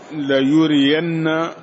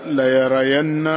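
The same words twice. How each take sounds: First: "ليرين" said la-yuriyanna, with u after ya and i after ra; damma, then kasra. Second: "ليرين" said la-yarayanna, with an a after both ya and ra; fatha on ya and ra. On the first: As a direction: pronounce "ليرين" as la-yu-ri-yan-na. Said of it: "بضم الياء وكسر الراء". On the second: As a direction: pronounce "ليرين" as la-ya-ra-yan-na. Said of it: "بفتح الياء والراء". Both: Shown as a demonstration.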